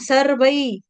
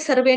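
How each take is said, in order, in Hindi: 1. शब्द का अंत 'ai' डिप्थॉन्ग से होता है। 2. शब्द का अंत सादे 'e' स्वर से होता है। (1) "यहाँ पे दो मात्रा, सर्वई बोलेंगे" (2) "सर्वे नहीं बोलेंगे"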